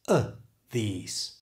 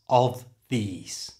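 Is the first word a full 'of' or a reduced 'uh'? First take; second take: reduced; full. First: The first word is a short 'uh' without v. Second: The first word is a full 'of' with v.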